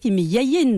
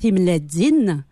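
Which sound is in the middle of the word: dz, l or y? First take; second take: y; dz. First: The middle consonant is a y sound. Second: The middle consonant is a dz sound. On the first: This is the form used in some other regions. "Thim Yayin dans certaines régions de Kabylie" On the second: This is the form used in the speaker's home region. "on parle effectivement en Dza. Donc les œufs vont se dire Timledzin"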